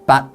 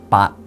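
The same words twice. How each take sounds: First: The syllable is said on a medium tone. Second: The syllable is said on a low tone. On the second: "and low tones"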